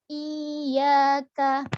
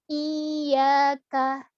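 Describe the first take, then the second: Both takes have the same delivery.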